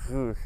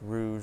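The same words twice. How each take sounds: First: The R is a French R, made at the back. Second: The R is an English R, made at the front. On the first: "my R transformed very quickly from rouge to rouge" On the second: "just say rouge like you would in English"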